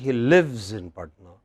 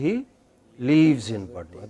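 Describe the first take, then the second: First: The vowel in 'lives' is short. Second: The vowel in 'lives' is long. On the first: The speaker calls it right. "It should be" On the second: The speaker calls it wrong. "It should not be"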